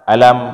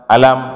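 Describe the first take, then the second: First: The word is said with a flat intonation. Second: The word is said with a flat intonation.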